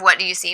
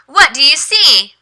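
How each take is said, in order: First: Said in the usual way. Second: Bright, high ESL teacher voice, higher. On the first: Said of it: "instead of". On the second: Shown as a demonstration. Teacher demos the question to her student, high and bright. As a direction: ask it slowly like to a young learner. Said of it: "ask them to read what it says".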